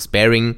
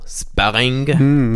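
First: The word is pronounced in an English style. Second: The word is pronounced in a French style.

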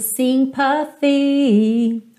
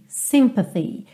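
First: All three syllables have nearly equal weight. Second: The stress is on the first syllable. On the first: "três notas praticamente com o mesmo peso. Então, essa palavra acaba soando sympathy" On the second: "normalmente sympathy, sympathy. A sílaba tônica é a primeira"

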